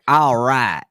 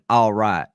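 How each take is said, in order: First: It is said with an exaggerated bumpkin twang. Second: It is said in a plain, normal way.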